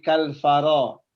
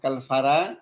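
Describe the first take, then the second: First: The ra ends in a thick 'o' vowel. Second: The ra ends in a thin 'a' vowel. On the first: The speaker calls it right. "ditebelin Pak Rusdi, pakai vokal O" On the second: The speaker calls it wrong. "bukan kal fara"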